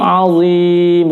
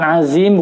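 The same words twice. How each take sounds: First: The middle consonant is a heavy emphatic sound. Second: The middle consonant is a plain light sound. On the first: The speaker calls it right. "huruf dha merupakan huruf isti'la" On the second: The speaker calls it wrong. "bukan azim"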